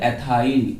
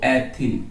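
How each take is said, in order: First: The second syllable has a long 'ai' vowel. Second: The second syllable has a short 'i' vowel. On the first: This is the English reading of the name. "English में पढ़ोगे ना इसे, इसे पढ़ोगे एथाइल" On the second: This is the Hindi-style reading of the name. "इसका name होता है एथिल"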